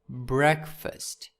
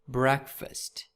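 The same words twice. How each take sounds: First: It is said as one word with reduced vowels. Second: It is said as one word with reduced vowels.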